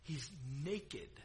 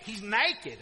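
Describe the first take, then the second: First: The word is said in a standard accent. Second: The word is said in a Southern accent.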